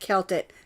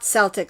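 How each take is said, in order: First: The word begins with a hard K sound. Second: The word begins with a soft S sound. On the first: This is how the channel owner says her channel name. The speaker calls it right. "she does pronounce it Celtic" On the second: This is how the basketball team's name is said. The speaker calls it wrong. "not Celtic like the basketball uh, players"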